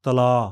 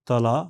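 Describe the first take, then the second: First: The final vowel is held extra long. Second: The final vowel has normal length. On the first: "extra long vowel" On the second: "साधारण"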